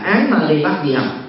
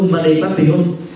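First: It is read with Sino-Vietnamese syllables. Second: It is read with Indian-style sounds. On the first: The speaker calls it wrong. "phiên âm Hán Việt là" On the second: The speaker calls it right. "đọc trực tiếp các câu thần chú với cái ngữ âm của người Ấn Độ"

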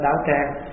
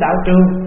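First: The second syllable is said as trang. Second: The second syllable is said as truong. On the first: This is the current way of saying it. "bây giờ mình đọc là thành đạo tràng" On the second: This is the older way of saying it. "hồi xưa ta kêu đạo trường"

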